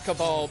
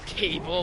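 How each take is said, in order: First: The name is said as ka-BAL. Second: The name is said like the word cable. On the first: The speaker calls it right. "It is Cabal" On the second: The speaker calls it wrong. "I also jokingly pronounce it Cable"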